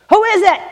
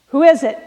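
First: Sharp, high shout through a door; loud voice. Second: Voice inside. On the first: Woman with a baby answering a knock, loud shout. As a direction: call out loudly, challenging the knocker. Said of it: "a loud voice came". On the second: Woman inside answering the second knock, brisk loud call. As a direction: call out briskly through the door. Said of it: "said the voice inside". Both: A narrator's reading.

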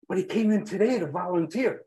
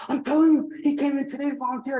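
First: Said in the usual way. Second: Very high, excited repeat; emphatic insistence. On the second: Retold or imitated. Nurse convincing disbelieving patient the man is here, emphatic insistence. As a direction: insist in a raised pitch, punching the opening.

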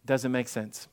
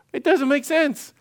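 First: Soft, low "doesn't make sense" as a closing reminder; quiet refrain. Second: High, incredulous "It doesn't make sense"; incredulous Gideon. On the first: Shown as a demonstration. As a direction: drop the voice and let it land. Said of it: "just remember". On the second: Retold or imitated. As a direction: Gideon baffled at his orders. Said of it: "He's like".

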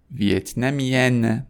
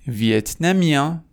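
First: ویتنامیان ending in "-yen" with full N; French feminine ویتنامیان, vowel not through the nose; non-nasal ending. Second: ویتنامیان rising high to a nasal vowel; French masculine ویتنامیان, nasalized ending. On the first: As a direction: sound the final n of ویتنامیان. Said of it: "دومی توی بینی نیست". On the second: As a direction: end ویتنامیان with silent n. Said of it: "همون بحث تو بینی". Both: Shown as a demonstration.

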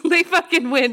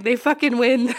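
First: Laughing through the words. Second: Said in the usual way. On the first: Retold or imitated. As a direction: laugh it out, giving up. Same quote repeated while laughing.

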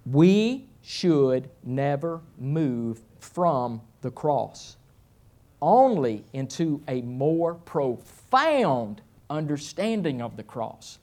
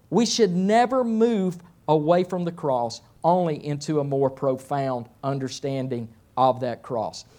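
First: Very slow, weighty reading with long pauses; solemn first reading. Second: Said in the usual way. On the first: Shown as a demonstration. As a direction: read it word by word, letting each phrase land. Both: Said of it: "I'm gonna say it twice".

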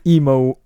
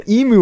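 First: EMU said as "emo", ending in OH; slip of the tongue. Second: Said in the usual way. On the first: Real, not acted. Co-host starting on the great emu war, tongue slipping to "emo". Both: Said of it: "I knew I was gonna say emo".

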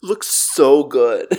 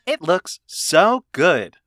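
First: Flat TikTok text-to-speech voice; monotone robot woman. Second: Slow, flat robot woman reading; TikTok robot voice. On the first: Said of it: "TikTok robot woman voice". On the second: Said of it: "I'm trying to do the TikTok robot woman voice". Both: Pretend.

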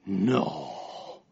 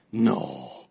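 First: Low, soft deadpan No; mock deep friend saying No; imitating Henry. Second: Lower, softer deadpan No; mock deep friend saying No again; imitating Henry. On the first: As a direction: drop deep and quiet for his No. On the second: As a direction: sink the No even lower. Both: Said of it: "that's him saying that".

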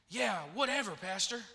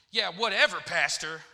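First: Said in the usual way. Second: Louder, dropping low on "Pastor"; dismissive misread text. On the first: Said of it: "I'll put on there". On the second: Acted. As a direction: read it as a brush-off. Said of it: "he'll get the text".

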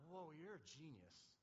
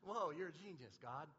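First: Awed praise to God. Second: Casual, buddy-like wonder; casual awed praise. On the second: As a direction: tell God he's a genius like a pal. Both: Retold or imitated. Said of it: "that's how I talk to him".

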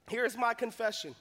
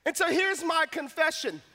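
First: Hushed repeat. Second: Said in the usual way. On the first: Shown as a demonstration.

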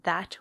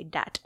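First: "that" with a soft English th; "that" with th, not d; standard th. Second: "dat" starting with a hard d; French-style "dat", d in place of th. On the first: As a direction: say "that" with the tongue between the teeth. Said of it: "instead of saying that". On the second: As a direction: turn the th of "that" into a d: "dat". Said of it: "It becomes a D". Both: Shown as a demonstration.

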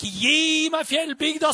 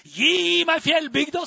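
First: High, loud, slower cry; impassioned shouted plea; retold shout. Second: High, loud cry; impassioned shouted plea; retold shout. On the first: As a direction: cry it out again with the same fire. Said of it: "Han skreik". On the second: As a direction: call out for the mountain village. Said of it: "Det var en som skreik der".

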